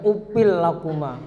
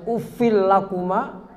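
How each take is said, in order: First: The consonant is a p sound. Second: The consonant is an f sound. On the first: The speaker calls it wrong. "Baca upil" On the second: The speaker calls it right.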